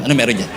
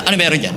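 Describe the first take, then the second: First: Nosy gossip, lower. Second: Nosy gossip. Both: Retold or imitated. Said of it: "mga chismoso".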